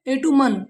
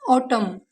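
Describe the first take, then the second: First: ए टू मन split into syllables with the N sounded; wrong pronunciation. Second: ऑटम with a silent N, ending on M; correct pronunciation. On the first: Teacher imitating children's error, ए टू मन with the N. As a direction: say ए टू मन letter by letter, N sounded. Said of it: "बच्चे गलत pronunciation करते हैं". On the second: Teacher showing pupils the right way, ऑटम with a silent N. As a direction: say ऑटम, stop on the M, no N. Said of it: "इसे एन नहीं पढ़ते". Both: Shown as a demonstration.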